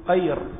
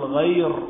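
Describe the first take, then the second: First: The word begins with a q sound. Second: The word begins with a gh sound. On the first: The speaker calls it wrong. "يجعل الغين قافا، وهذا خطأ" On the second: The speaker calls it right. "بل يقول غير"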